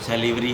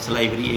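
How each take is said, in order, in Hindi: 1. दूसरे अक्षर में छोटी 'li' ध्वनि है। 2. दूसरे अक्षर में लंबी 'lie' ध्वनि है। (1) "सैलिवरी और सलाइवरी एक ही बात है" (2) "एक्चुअल में तो सलाइवरी हो गया"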